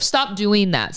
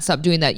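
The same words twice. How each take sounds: First: "stop" punched higher, falling on "that"; stress on stop. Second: Said in the usual way. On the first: Real, not acted. Host telling listeners to quit the post office, stress on stop. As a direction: hit the word "stop" up high and firm.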